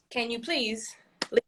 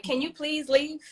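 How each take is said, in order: First: Restrained repeat request. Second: Polite, higher-pitched request with a rise; saying it nice. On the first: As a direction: repeat the request with strained patience. Parent repeats request to staring kids. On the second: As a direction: ask nicely, as a patient parent. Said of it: "I'm gonna say it nice". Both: Acted.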